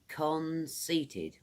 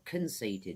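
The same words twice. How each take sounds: First: The word is said at a normal pace. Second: The word is said quickly and compressed.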